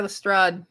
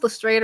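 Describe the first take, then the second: First: Lestrade with an open "ah" in the last syllable; Lestrade as "le-STRAHD". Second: Lestrade with a long "ay" in the last syllable; Lestrade as "le-STRAYED". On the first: Asking viewers about the name, Lestrade said "le-STRAHD". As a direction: say Lestrade to rhyme with "façade". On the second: Asking viewers about the name, Lestrade said "le-STRAYED". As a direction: say Lestrade to rhyme with "made". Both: Shown as a demonstration. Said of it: "Are we pronouncing this".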